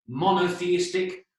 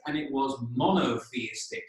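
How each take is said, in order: First: Monotheistic spelled out slowly syllable by syllable; slow down and lay out each part of monotheistic; careful pronunciation. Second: Said in the usual way. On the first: Shown as a demonstration. Teacher showing Greek speakers the word, slow and careful. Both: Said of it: "For any of you that speak a bit of Greek".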